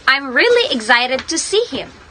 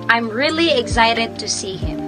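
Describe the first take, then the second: First: It is read with strong, excited emotion. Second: It is read plainly, without strong emotion.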